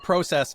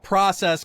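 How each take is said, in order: First: The word is said in a Canadian way. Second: The word is said in an American way. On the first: It imitates how Canadians say the word. "make fun of the Canadian accent by saying process" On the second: It is how the speaker's own group says the word. "because that's what we say"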